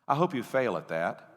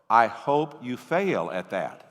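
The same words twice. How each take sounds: First: The sentence is said at a normal pace. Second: The sentence is said slowly and deliberately.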